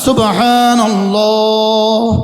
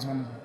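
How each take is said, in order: First: It is said once, slowly, in one breath. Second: It is rushed, run together with repeats. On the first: The phrase is recited mindfully, one at a time. The speaker calls it right. "এক শব্দ এক নিঃশ্বাসে একবার বলেন" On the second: The phrase is recited carelessly in quick repetition. The speaker calls it wrong. "আগে পড়তাম এভাবে"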